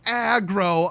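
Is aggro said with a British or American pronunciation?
British. It is said the British way.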